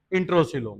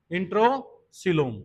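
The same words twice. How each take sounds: First: Said in the usual way. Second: "इंट्रोसीलोम" drawn out slowly in two parts; slow, split repetition. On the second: Real, not acted. Teacher answers own quiz for students, "इंट्रोसीलोम" slow and split. Term repeated after quizzing the class.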